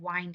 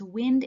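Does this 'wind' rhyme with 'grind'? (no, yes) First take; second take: yes; no. First: Its vowel matches the vowel in grind. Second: Its vowel differs from the vowel in grind. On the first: The speaker calls it wrong. "instead of wind and grind" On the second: The speaker calls it right. "when you say them out loud, it's wind and grind"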